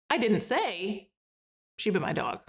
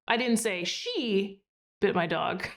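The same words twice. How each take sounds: First: There is a pause after the word say. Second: There is a pause after the word she.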